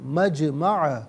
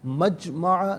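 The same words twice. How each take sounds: First: The jim has a light echoing bounce. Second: The jim stops flat with no echoing bounce. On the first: The speaker calls it right. "आवाज़ लौटती भी महसूस होनी चाहिए" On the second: The speaker calls it wrong. "मजमअ नहीं"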